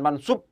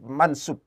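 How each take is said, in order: First: "mansub" with a heavy emphatic Arabic s, as if spelt with shad; wrong heavy shad. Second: "mansub" with a plain, light Arabic s, as in sin; light sin sound. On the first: Teacher showing students the mistaken spelling, "mansub" with heavy shad s. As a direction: say "mansub" with shad instead of sin. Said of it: "bukan pakai shad". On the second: Teacher showing students the correct term, "mansub" with light sin s. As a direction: say "mansub" with sin, the s kept thin. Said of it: "isim mansub pakai sin". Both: Shown as a demonstration.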